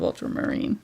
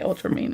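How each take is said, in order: First: The ending sounds like the word 'marine'. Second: The ending sounds like the word 'mean'. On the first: This is the usual pronunciation. "instead of ultramarine" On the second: This is the speaker's own habitual pronunciation. "I do say ultramarine"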